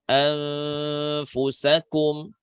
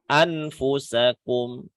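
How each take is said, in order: First: The n is blurred with a held nasal hum. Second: The n is pronounced clearly with no hum. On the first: The speaker calls it right. "Dan menahan dengungnya" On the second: The speaker calls it wrong. "Nun sukun dibaca secara jelas"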